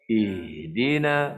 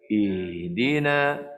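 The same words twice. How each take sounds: The two takes are said the same way.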